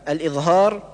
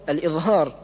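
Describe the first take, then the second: The two takes are said the same way.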